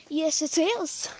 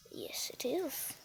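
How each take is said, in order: First: Said in the usual way. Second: Hushed whispered reply; very soft, voiceless aside. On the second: Pretend. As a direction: whisper the answer slowly. Answers own question in whisper.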